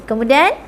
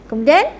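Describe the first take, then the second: No difference in how they are said.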